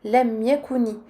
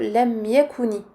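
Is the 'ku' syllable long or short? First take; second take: short; short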